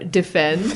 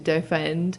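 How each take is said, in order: First: The word is pronounced in the usual way. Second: The word is pronounced in an unusual way.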